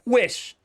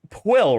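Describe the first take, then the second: First: The name ends in a hissing sound. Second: The name ends in a plain L sound. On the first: The speaker calls it right. "It's Pwish" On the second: The speaker calls it wrong. "No, wrong, incorrect, you fool"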